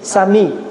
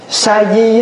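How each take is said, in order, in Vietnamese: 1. Âm tiết thứ hai bắt đầu bằng âm M. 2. Âm tiết thứ hai bắt đầu bằng âm D. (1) "người Trung Hoa đọc là Sa Mi" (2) "Người Việt Nam mình á, là hễ thấy cái chữ đó đọc thành chữ Di"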